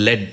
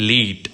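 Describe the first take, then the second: First: "lead" said as led, short e, rhyming with bed; "lead" pronounced led, the metal. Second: "lead" said as leed, long ee, rhyming with need; "lead" pronounced leed, meaning to guide. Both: Shown as a demonstration. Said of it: "pronunciation വ്യത്യാസമാണ്".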